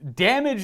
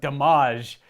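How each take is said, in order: First: The word is said with its ordinary pronunciation. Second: The word is said with a playful, mocking pronunciation. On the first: "is the way I typically say it" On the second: "I just like to make fun of it"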